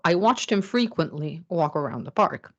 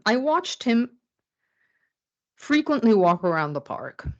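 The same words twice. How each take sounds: First: "watched" stressed, the sentence runs on without a break; no pause, watched stressed. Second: "I watched him", then a long pause, then "frequently walk around the park"; pause before frequently. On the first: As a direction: say it in one breath and lean on "watched". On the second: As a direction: break the sentence after "him" so "frequently" goes with "walk". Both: Shown as a demonstration. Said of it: "with a voice, you can obtain more clarity".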